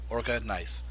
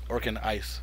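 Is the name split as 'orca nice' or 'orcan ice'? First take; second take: orca nice; orcan ice. First: The name splits after orca, then nice. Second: The name splits after orcan, then ice. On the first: The name refers to the orca whale. The speaker calls it right. "so like Orca Whale" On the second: The name refers to hitting orcs and eating ice. The speaker calls it wrong. "Hitting orcs and eating ice is nice"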